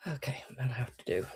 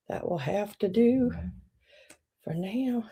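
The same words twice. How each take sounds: First: Soft whisper, falling at the end; mumbled resignation to self; whispered aside. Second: Said in the usual way. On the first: Real, not acted. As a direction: settle for it under your breath. Muttering to self.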